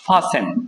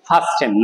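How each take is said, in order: First: The middle t is left silent. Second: The middle t is clearly pronounced. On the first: The speaker calls it right. "টির উচ্চারণ উচ্চারণটা হবে না" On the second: The speaker calls it wrong. "এটা অনেকে আমরা বলি ফাস্টেন"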